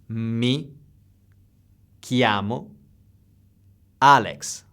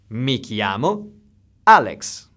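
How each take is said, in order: First: The phrase is spoken slowly. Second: The phrase is spoken at normal speed.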